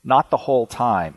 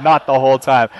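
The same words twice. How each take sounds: First: Said in the usual way. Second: "Not" hit louder, the rest falling away; stress on not. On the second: Shown as a demonstration. Host rereading a listener's punchline, stressing "Not". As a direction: lean on "Not" with amused emphasis. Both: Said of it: "I like that she added".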